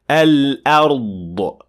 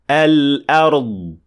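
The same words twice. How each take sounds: First: The final consonant ends with a released burst. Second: The final consonant ends without a released burst. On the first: The speaker calls it wrong. "The mistake sounds like this" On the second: The speaker calls it right. "And it should sound like this"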